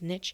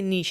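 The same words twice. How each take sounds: First: It is said the American way. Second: It is said the speaker's local way.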